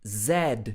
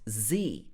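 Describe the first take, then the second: First: The letter is said as 'zed', ending in d. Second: The letter is said as 'zee', ending in a vowel. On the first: "But in British English, in the U K, people are taught Z" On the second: "In American English, this would be pronounced Z"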